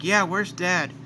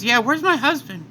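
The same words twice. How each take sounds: First: "Yeah, where's Dad?" only slightly raised; lightly voiced Gohan. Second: Chi-Chi. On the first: Gohan asking about his father, lightly voiced. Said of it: "Gohan's like". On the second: Acted. Chi-Chi asking about her husband, high and worried. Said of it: "Chi-Chi says".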